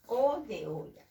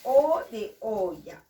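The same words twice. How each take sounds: First: Said in the usual way. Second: Slow, louder "O de olla" with the O drawn out; teacher stretching the O in "O de olla"; stretched vowel. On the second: Shown as a demonstration. Teacher to young pupils, drawing out the O. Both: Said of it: "Y digo".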